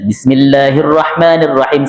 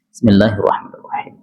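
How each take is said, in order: First: It is said loudly, in a full voice. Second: It is said quietly, in a low voice.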